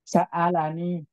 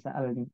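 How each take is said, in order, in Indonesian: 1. Vokal a pendek mengikuti l. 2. Tidak ada vokal yang mengikuti l. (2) "Bukan sa'alni"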